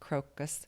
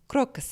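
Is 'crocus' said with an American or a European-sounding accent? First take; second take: American; European. First: It is said in a plain American accent. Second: It is said in a European-sounding accent.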